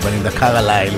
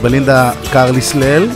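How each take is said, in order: First: The s sound in Carlisle is silent. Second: The s sound in Carlisle is pronounced. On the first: The speaker calls it right. "שידעו שצריך להגיד בלינדה קרלייל ולא אחרת" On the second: The speaker calls it wrong. "שמע את אחת השדרניות אומרת בלינדה קרליסלל או משהו כזה"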